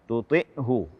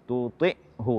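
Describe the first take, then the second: Both takes have the same delivery.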